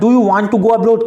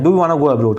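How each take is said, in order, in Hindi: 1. दोनों शब्द 'want to' पूरे बोले जाते हैं। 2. 'Want to' एक शब्द में मिलकर 'wanna' बन जाता है।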